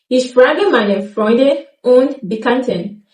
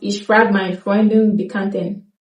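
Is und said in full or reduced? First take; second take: full; reduced. First: Und is pronounced in full with its d. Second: Und is shortened to a brief n sound.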